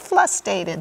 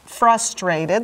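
First: The second sound is an l. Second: The second sound is an r. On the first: The speaker calls it wrong. "That's what my little boy used to say" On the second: The speaker calls it right. "Let me pronounce it correctly"

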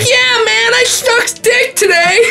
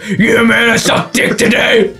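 First: It is said in a normal voice. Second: It is said in a put-on deep voice.

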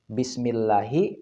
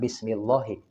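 First: The 'l' in 'llahi' is light and thin. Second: The 'l' in 'llahi' is heavy and thick. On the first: The speaker calls it right. "tidak perlu ditebalkan" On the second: The speaker calls it wrong.

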